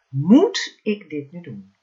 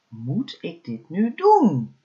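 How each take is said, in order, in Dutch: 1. De klemtoon valt op het woord moet. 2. De klemtoon valt op het woord doen. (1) "elke keer de klemtoon op een ander woord gelegd" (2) "elke keer de klemtoon op een ander woord gelegd"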